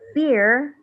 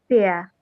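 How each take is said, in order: First: The final R sound is pronounced. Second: The final R sound is silent. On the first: "Instead of fear" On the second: "British people would say fear"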